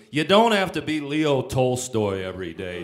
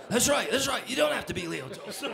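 First: Louder, laughing mock scold; laughing while retelling the scolding; laughing shout. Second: High laughing repeat; giggling the line back; squealing with laughter as he repeats it; laughing agreement. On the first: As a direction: bellow the advice, half laughing. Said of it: "He goes". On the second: Retold or imitated.

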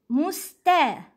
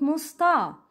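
First: Musta with a thin front "ta"; light sound. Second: Musta with a dark "taw"; heavy sound. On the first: (Musta ending like "tae") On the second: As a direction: thicken the ta in musta. (musta ending on a back aw vowel) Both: Shown as a demonstration. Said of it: "It's not musta".

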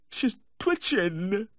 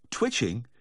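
First: High, drawn-out tearful wail; weepy high-pitched lament; distraught weeping. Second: Said in the usual way. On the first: A narrator's reading. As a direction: wail it slowly, close to sobbing. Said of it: "the distraught weeping".

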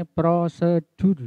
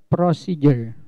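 First: "prosedur" said the Indonesian way, "pro-se-DUR"; Indonesian pronunciation. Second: "procedure" said the English way, "pro-SEE-jer"; English pronunciation. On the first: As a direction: say "prosedur" with Indonesian vowels and a plain "d". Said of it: "Bahasa Indonesia ini prosedur". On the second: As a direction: say "procedure" English style, with a "j" sound. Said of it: "bacanya procedure kalau bahasa Inggris". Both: Shown as a demonstration.

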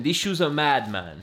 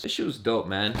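First: Put-on lively London accent, pitch dropping on the last word. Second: Said in the usual way. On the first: Sneakerhead showing how they'd say it in London, London accent. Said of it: "I did a London accent".

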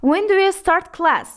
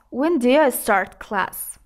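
First: Said in the usual way. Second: "do you" shortened to "d'ya", like "dee-uh"; slow, careful question with "do you" reduced to "dee-ya". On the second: Shown as a demonstration. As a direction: run "do you" together as "diya". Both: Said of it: "چگونه ما do you را دیه تلفظ".

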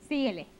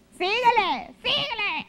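First: Said in the usual way. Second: Put-on ugly voice. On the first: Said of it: "luego esa voz". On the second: Shown as a demonstration. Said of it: "Ay, qué feo hablo".

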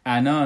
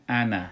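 First: انا read with a long final alif; انا with its written alif sounded out, as a mistake; wrong long reading. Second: انا with a short final a, alif silent; انا clipped short, the final alif not read; short ana. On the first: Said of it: "ما این را انا نمیخوانیم". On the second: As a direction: say انا like alif-nun with fatha, no long a. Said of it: "انا بخوانین". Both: Shown as a demonstration.

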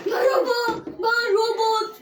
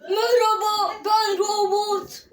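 First: Loud, slow robot voice; drawn-out robot greeting. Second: Slow, stretched robot voice. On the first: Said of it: "şimdi robot sesini açıyorum". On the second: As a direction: speak like a toy robot. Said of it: "robot sesini aç". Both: Pretend.

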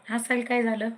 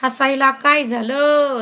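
First: Said in the usual way. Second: Louder, slower, stretched demand; loud slow repeat. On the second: Real, not acted. Host demanding why the laughing viewer laughs, loud and slow. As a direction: drag the question out and push it.

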